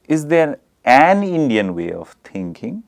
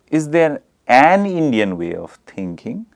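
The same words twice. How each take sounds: First: The stress falls on the word an. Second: The same.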